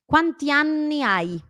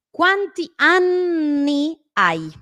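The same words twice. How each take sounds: First: "Quanti anni hai?" slow and higher, N briefly held in "anni"; lengthened double N. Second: "Quanti anni hai?" very slow, loud, high, N stretched in "anni"; exaggerated double N. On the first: Teacher repeating the practice phrase, moderately lengthened double N. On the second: Teacher practising double N with learners, exaggerated slow demo. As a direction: draw out both Ns in "anni". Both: Shown as a demonstration. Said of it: "Trato de alargarla".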